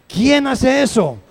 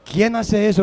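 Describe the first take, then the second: First: Slower and louder, pressing the question home; loud slow rhetorical question; emphatic repeat. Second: Said in the usual way. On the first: Acted. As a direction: challenge the congregation.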